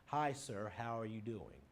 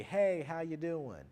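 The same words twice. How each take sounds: First: Respectful, restrained greeting to a teacher; polite formal greeting. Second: Casual, louder and slower hello; easygoing, louder drawn-out friendly hello; friendly greeting. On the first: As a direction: greet your teacher properly in class. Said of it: "As opposed to in class". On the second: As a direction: greet a buddy you bump into at Walmart. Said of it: "You may be more friendly". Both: Shown as a demonstration.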